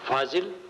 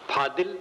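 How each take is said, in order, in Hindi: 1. बीच का व्यंजन j की ध्वनि है। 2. बीच का व्यंजन d की ध्वनि है। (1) "शुद्ध शब्द है फाजिल" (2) "जिसको अपभ्रंश में फादिल कहते"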